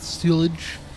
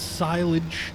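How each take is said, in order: First: The first syllable sounds like 'sill'. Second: The first syllable sounds like 'sigh'. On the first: The speaker calls it wrong. "not silage" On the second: The speaker calls it right. "It's silage"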